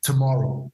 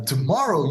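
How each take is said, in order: First: Said in the usual way. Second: Tomorrow? pitched up in startled disbelief. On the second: Retold or imitated. Vic repeating the date back to Kiko in disbelief. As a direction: echo it back, stunned.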